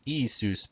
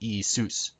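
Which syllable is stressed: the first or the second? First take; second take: first; second. First: The stress is on the first syllable. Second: The stress is on the second syllable. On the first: The speaker calls it wrong. "Not Isus" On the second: The speaker calls it right. "with the accent on sus"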